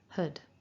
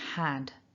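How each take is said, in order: First: It has a weak schwa vowel with h. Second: It has a full vowel, as in cat. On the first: "to form our weak form of had with our schwa" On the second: "the strong form of this word is had"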